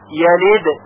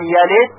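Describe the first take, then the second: First: The final d is released with a clear bounce. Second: The final d is swallowed and barely heard. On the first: The speaker calls it right. "باید با قلقله تلفظ بشه" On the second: The speaker calls it wrong. "که صدای دال به خوبی شنیده نشه اشکال پیدا میشه"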